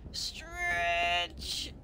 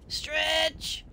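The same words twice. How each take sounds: First: Low, very drawn-out stretch; elongated, dropping urging; longer stretch. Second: Higher, drawn-out stretch; strained upward urging. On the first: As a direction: drag the word out slowly and lower. Urging the creature, second longer take. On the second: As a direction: stretch the word out on a higher pitch. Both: Acted.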